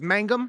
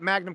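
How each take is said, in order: First: The n sound comes before the g. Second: The n sound comes after the g. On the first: The speaker calls it right. "Our last name is Mangum" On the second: The speaker calls it wrong. "it really annoys me when people get my last name wrong"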